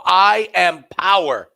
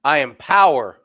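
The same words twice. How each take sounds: First: Loud, slow and higher, a mock-grand proclamation; slow booming mock proclamation; booming declaration. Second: Loud, firm, stress on power; loud firm declaration. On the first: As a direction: proclaim it like a god. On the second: Retold or imitated. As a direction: plant the word power with weight. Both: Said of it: "You go".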